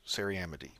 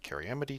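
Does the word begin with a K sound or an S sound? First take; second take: S sound; K sound. First: The word begins with an S sound. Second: The word begins with a K sound. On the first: "the British English pronunciation" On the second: "It's basically U S English"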